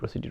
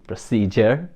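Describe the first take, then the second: First: The middle sounds like 'dude'. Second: The middle sounds like 'jer'. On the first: The speaker calls it wrong. "আমরা সবাই প্রসিডিউর প্রসিডিউর প্রসিডিউর" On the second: The speaker calls it right. "It's actually প্রসিজার। there is no dude in it"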